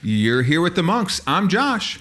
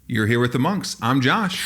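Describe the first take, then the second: First: It is said with too much energy. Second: It is said with calmer, moderate enthusiasm.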